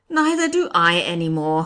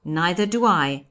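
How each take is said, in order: First: Loud exclamation by the judge; crying out. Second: Said in the usual way. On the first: A narrator's reading. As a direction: cry it out emphatically. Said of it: "cried the judge". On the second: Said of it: "I repeated in my turn".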